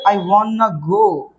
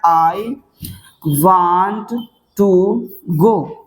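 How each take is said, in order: First: Want to is reduced to one word, wanna. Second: Want to is said fully as two words. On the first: "इसके short form में बनाना है। तो क्या बोलोगे?" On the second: "मैं जाना चाहता हूं तो बनता क्या?"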